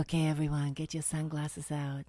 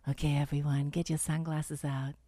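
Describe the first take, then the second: First: Low sultry announcer voice, lower pitch; failed seductive. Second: Low sexy voice brought down a notch; failed seductive. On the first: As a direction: purr it low, trying to be sexy. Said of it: "I tried to be sexy on this one". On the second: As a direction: drop the voice low and sultry. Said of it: "I brought it down a notch". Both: Shown as a demonstration.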